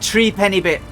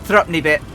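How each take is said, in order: First: The word is said as three-penny, fully. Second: The word is shortened to thrup-ney. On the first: The speaker calls it wrong. "Should be Tree Penny Bit" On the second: The speaker calls it right. "Never pronounce it Tree Penny, but Thropney"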